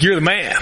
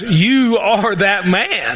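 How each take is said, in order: First: It sounds like admiring praise. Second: It sounds like a grave accusation.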